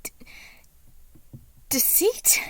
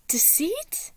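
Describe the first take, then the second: First: Much higher and louder, startled; startled cry. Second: Higher, breathless whisper; shaken whisper. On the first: Patton startled to find Deceit in his corner, loud cry. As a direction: jolt at the sight of him. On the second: Patton facing Deceit in his room, hushed shaken whisper. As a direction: barely dare to say his name. Chapter opens, Deceit again. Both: A narrator's reading.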